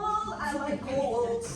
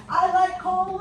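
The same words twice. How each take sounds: First: Very slow, stretched-out words; slow drawn-out pleased repeat; savoring drawl. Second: High, much louder, gleeful; loud high mock cheer; excited body voice. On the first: Pretend. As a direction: savor each word like a treat. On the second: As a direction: shout your delight at the cold. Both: Voicing the body enjoying cold.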